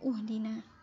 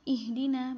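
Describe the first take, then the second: First: The word begins with a u vowel. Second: The word begins with an i vowel. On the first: The speaker calls it wrong. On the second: The speaker calls it right. "hamzah wasalnya juga dibaca kasrah"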